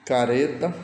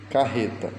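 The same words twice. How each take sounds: First: Flick the r once in careta; single tapped R. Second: Carreta with a breathy h-like rr; strong double R. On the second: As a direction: say carreta with rr sounded as h. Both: Shown as a demonstration. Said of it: "para lê-las em voz alta".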